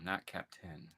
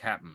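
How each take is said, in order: First: The word is said in full, with both syllables. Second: The word is shortened, with the middle sounds dropped. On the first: The speaker calls it wrong. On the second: The speaker calls it right. "we can't spell out the whole word anymore"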